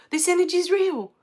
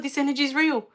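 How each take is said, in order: First: Second take, higher and more strained; this energy is real, now pushed up with emotion; retold overwhelmed awe. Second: First take, a bit higher, marvelling; retold amazement. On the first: Retelling crying over the Reiki energy, higher overwhelmed awe. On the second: Retelling the moment she first felt Reiki energy, mild awe. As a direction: say this energy is real with dawning wonder. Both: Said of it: "I just sat there crying".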